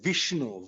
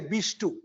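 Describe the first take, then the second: First: The name begins with a v sound. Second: The name begins with a b sound. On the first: "they don't say Vishnu" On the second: "We say Bishtu"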